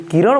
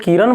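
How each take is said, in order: First: किरण as "kiraṇ", tongue curled back at the end; retroflex final sound. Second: किरण as the name "kiran", with plain n; dental final n. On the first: Teacher giving the physics term against the name, retroflex किरण. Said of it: "यदि हम लोग किरण बोल देंगे". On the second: Teacher contrasting a girl's name with the term, किरण with plain n. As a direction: finish किरण on an ordinary dental न. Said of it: "किरण का मतलब होता है कोई लड़की". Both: Shown as a demonstration.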